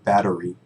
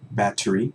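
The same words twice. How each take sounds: First: The middle consonant sounds like a D. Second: The middle consonant is a clear T sound.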